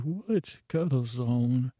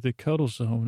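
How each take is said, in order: First: Puzzled echo. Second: Said in the usual way. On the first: Retold or imitated. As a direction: query it in mild, drawn-out disbelief. Puzzled echo of what was said.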